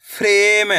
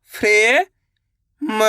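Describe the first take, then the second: First: Said in the usual way. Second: frame stretched very slowly; slow drawn-out. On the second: Shown as a demonstration. Teacher sounding out frame for pupils, very slow. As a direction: hold frame long and slow.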